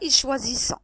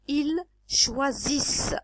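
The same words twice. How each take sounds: First: The final ending is pronounced as a nasal vowel. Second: The final ending is silent after the s sound. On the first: The speaker calls it wrong. "C'est pas ils choisissent" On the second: The speaker calls it right. "La prononciation, s'il vous plaît"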